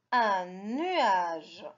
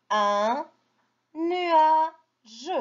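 First: Said in the usual way. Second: Nuage high and split, nua, pause, je; sounded out. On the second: Shown as a demonstration. Teacher models reading for children, word in spaced pieces. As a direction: separate un from nuage, final je on its own.

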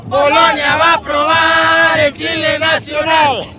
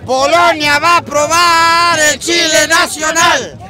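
First: Louder slow taunt; shouted taunt. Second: Taunting. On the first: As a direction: shout it at the rivals. Repeated louder. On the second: Taunting announcement. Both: Real, not acted.

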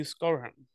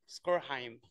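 First: Skorheim with a weak ending, like SKOR-um; second syllable of Skorheim swallowed to a schwa; mispronounced surname. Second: Skorheim as SKOR-hime, softer; corrected surname. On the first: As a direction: say Skorheim with the last syllable reduced to "hum". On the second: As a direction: give Skorheim a full "hime" ending, rhyming with time. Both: Real, not acted. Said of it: "There you go".

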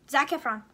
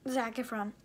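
First: Zac Efron, first take, punched out louder; emphatic answer. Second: Said in the usual way. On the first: Real, not acted. Girl answers a question on camera, loud and emphatic. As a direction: blurt the name out with conviction.

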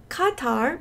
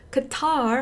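First: 카타르 with the stress up front; KA-tar, no stress on the end of 카타르. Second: 카타르 as "kuh-TAR", stress on the end; weak "kuh", long TAR in 카타르; American Qatar. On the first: Retold or imitated. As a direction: imitate locals saying 카타르, first syllable strong. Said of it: "강세가 뒤에 있진 않다고". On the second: Shown as a demonstration. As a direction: stretch the second syllable of 카타르 with an English r. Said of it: "카타르 하셔야 되는 거예요".

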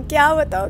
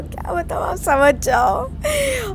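First: Said in the usual way. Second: Whispered words dissolving into giggles, stretched out slowly; can barely speak for laughing; real laughter swallowing the words; breathless laughter. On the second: Real, not acted. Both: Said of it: "यार इतनी हंसी आ रही थी ना".

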